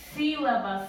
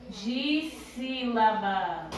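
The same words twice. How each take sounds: First: Said in the usual way. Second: "Dissílabas" very slowly, drawn out syllable by syllable; separando em sílabas. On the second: Shown as a demonstration. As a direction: stretch each syllable of "Dissílabas" like a teacher demonstrating. ("Dissílabas" bem devagar, esticando cada sílaba) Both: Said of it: "a gente vai separar as palavras em".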